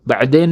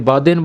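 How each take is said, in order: First: The word has a throaty 'ain' sound after 'ba'. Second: The word has a plain long vowel after 'ba'. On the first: The speaker calls it right. "बैदेन नहीं बोल सकते" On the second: The speaker calls it wrong. "बादेन बोलते हैं"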